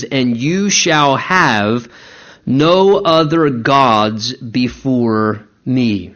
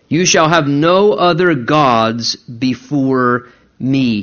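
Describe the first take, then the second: First: "no" slow and stressed, voice low; slow solemn command. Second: "no" weighted, said slowly; stress on no. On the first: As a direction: read it like a divine decree, very slowly. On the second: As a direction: lean on the word "no". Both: Shown as a demonstration. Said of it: "the emphasis there should be upon the word "no".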